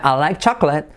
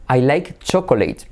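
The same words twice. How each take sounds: First: "chocolate" as two-syllable "CHAK-let", stressed first; brisk native "chocolate"; native pronunciation. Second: "chocolate" as slow three-syllable "choco-LEIT"; slower, non-native "I like choco-late"; learner mispronunciation. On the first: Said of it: "y es chocolate". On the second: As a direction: drag "chocolate" out as it is spelt. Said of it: "que tendemos a decir chocolate". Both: Shown as a demonstration.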